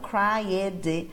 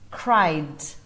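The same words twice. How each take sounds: First: The ending is an extra syllable. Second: The ending is only a D sound. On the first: The speaker calls it wrong. "não cried ou algo do tipo" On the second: The speaker calls it right. "É só o som do D"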